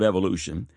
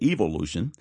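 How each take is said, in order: First: The word is said with an American pronunciation. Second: The word is said with an English pronunciation.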